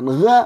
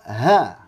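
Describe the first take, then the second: First: The syllable starts with a hard g sound. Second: The syllable starts with a breathy h sound. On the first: The speaker calls it wrong. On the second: The speaker calls it right.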